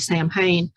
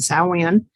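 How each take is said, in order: First: It is read out as English spelling suggests. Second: It is said with the native Gaelic pronunciation. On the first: The speaker does not know the word. The speaker calls it wrong. "everybody that sees that initially that doesn't know how to say that will say Samhain" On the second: The speaker knows the word's origin. The speaker calls it right. "it's actually pronounced Samhain, which is Gaelic, and that is um, the proper pronunciation"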